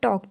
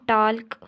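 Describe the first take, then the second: First: The l sound is left out entirely. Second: The l sound is pronounced before the k. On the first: The speaker calls it right. "इसको हम बोल रहे हैं टॉक" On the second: The speaker calls it wrong. "इसको हम टाल्क, टॉल्क नहीं बोल रहे"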